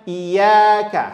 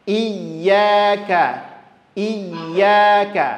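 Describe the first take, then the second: First: Iyyaka with a single y, no pressure; wrong, no stress. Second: Iyyaka with the yy doubled and pressed; pressed shadda. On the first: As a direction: skip the doubling on iyyaka. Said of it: "Jangan dibaca". (iyyaka tanpa tekanan tasydid) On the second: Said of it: "sedikit ditekan ke huruf yang bertasdid". (iyyaka dengan tekanan pada yy) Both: Shown as a demonstration.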